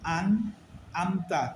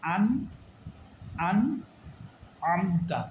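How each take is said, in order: First: "আমতা" starts with a plain a, like "আন"; no throaty ain in "আমতা", just a glottal onset; ain changed to hamza. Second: Measured "আন", then a throaty ain opening "আমতা"; correct hamza and ain. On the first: Teacher warning that ain changes, "আমতা" said with plain hamza. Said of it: "তাইলে এটা ভুল হবে". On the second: Teacher giving the correction, "আমতা" with a clear mid-throat ain. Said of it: "তাইলে বলতে হবে". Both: Shown as a demonstration.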